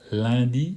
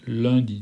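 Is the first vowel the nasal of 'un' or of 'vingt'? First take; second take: vingt; un. First: The first vowel is the nasal of 'vingt'. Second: The first vowel is the nasal of 'un'. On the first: The speaker calls it wrong. "On ne dit pas lundi" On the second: The speaker calls it right. "on dit lundi"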